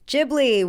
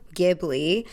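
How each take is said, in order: First: It begins with a J sound. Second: It begins with a hard G sound. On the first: "Ghibli with a J" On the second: "like the G in give"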